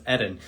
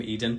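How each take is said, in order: First: "Eden" with a short E, as ED-un; corrected pronunciation. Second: "Eden" with a long EE first vowel; usual pronunciation. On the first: Host passing on the correct name, "Eden" as ED-un. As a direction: say "Eden" to rhyme with "wooden"-style ending, starting ED. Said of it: "his name is pronounced". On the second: Host admitting how they always call the guest, "Eden" as EE-dun. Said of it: "as I always call him". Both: Shown as a demonstration.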